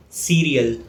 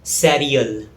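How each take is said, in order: First: Cereal said SEER-ee-ul; correct pronunciation. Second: Cereal said SAIR-ee-ul; common mispronunciation. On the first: Teacher showing learners the correct cereal, SEER-ee-ul. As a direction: say cereal with a long ee first vowel. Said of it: "The correct pronunciation is". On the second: Teacher showing learners the mistaken cereal, SAIR-ee-ul. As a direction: say cereal with an open eh first vowel. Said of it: "It's often mispronounced as". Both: Shown as a demonstration.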